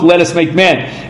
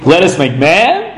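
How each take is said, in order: First: It is said as a flat statement. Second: It is said as a question, rising. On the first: It is a plain declaration. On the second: It is a consultation asking for opinions.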